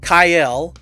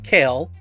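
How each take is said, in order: First: The vowel sounds like the one in 'mile'. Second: The vowel sounds like the one in 'mail'. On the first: The speaker calls it right. "Kyle, by the way" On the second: The speaker calls it wrong. "not Kale"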